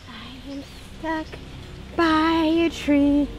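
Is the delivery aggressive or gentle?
gentle. It is said in a gentler way.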